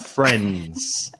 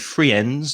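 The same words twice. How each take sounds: First: Some letters of the word are not sounded. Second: Every letter of the word is sounded out. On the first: The speaker calls it right. "it's friends" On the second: The speaker calls it wrong. "We don't say friends"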